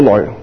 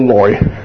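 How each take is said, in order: First: It is read with the sound of 来往. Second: It is read with the sound of 耐. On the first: It means come, as in coming and going. The speaker calls it wrong. "就唔系读个来" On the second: It is the character's own original reading. The speaker calls it right. "应该读作个来字。嗱，忍耐个来字嘅音。"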